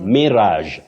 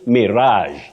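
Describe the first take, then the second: First: The stress is on the first syllable. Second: The stress is on the second syllable. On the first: "You say mirage" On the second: "with the stress on the second syllable"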